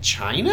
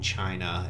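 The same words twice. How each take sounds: First: The word sounds surprised and impressed. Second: The word sounds disappointed and resigned. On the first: The country did something unexpectedly progressive. "every so often they do things that are so incredibly liberal. You're like" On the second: The country did something bad, as expected. "other times they do things and you're like, oh"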